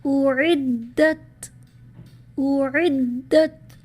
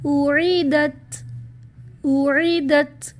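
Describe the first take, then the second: First: Very slow اعدت with a doubled dal; correct recitation. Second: Slow اعیدت with a single light dal, no shadda; wrong reading. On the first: Teacher recites the correct word to students, slow. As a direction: press the shadda on the dal of اعدت. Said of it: "جیسے". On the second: Teacher demonstrates the mistake to students, slowly. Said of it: "اگر اس کو غلط پڑھا جائے". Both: Shown as a demonstration.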